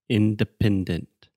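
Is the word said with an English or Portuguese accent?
English. It has English stress on first and third syllables.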